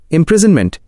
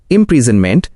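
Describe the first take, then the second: First: Said in the usual way. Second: इम्प्रिजनमेंट sounded out as im-pree-zan-ment, with a full final vowel; pronunciation model. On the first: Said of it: "उच्चारण मार्गदर्शिका". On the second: Shown as a demonstration. Guide showing learners how to say the word, इम्प्रिजनमेंट sounded out with full vowels. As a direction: say इम्प्रिजनमेंट in clear parts, rising at the end. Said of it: "इन शब्दों को बिल्कुल सही बोलें".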